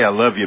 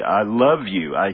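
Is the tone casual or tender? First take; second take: casual; tender. First: It is said in a casual, friendly tone. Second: It is said in a soft, tender tone. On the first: It expresses friendship between buddies. "I tell Bruce, I say, hey, I love you, man" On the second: It expresses romantic love for a spouse. "Tell my wife... I say, I love you. We use tone"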